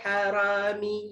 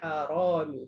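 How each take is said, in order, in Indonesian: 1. Bunyi r-nya tipis, dengan vokal terbuka. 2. Bunyi r-nya tebal, dengan vokal membulat. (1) "tak boleh ... salah" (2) "Kena hara macam tu ya"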